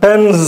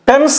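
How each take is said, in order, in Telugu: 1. ఈ పదం గునుగునలాడే z శబ్దంతో ముగుస్తుంది. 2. ఈ పదం బుసలాంటి s శబ్దంతో ముగుస్తుంది. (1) "జ్ అనల" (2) "ఇక్కడ పెన్స్ అనకూడదు, పెన్స్ ఎస్ సౌండ్ రాకూడదు"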